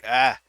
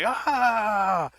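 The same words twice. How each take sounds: First: It is a weak, half-hearted scream. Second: It is a loud, full, echoing scream.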